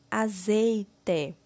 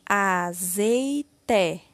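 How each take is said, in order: First: Said in the usual way. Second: AZEITE drawn out slowly as a, zei, te; syllable by syllable. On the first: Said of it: "formando a palavra". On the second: Shown as a demonstration. Teacher completing the word with syllable té, slowly syllable by syllable. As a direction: sound out AZEITE one syllable at a time. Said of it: "Iremos utilizar a sílaba té".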